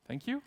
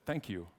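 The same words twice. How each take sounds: First: Soft, high questioning lift; confused. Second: Soft, low, falling delivery; quiet thanks. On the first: Usher thanking the coworker who backed him, confused. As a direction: thank them as if unsure what just happened. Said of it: "in a confused way". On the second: Usher thanking coworker for having his back, quiet gratitude. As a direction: say it quietly and simply, as settled gratitude. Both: Retold or imitated.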